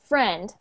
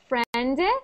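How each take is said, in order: First: The word stops cleanly on the final consonant. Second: An extra short vowel sound follows the final consonant. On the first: The speaker calls it right. "it ends at the friend" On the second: The speaker calls it wrong. "you were saying like a little sound after"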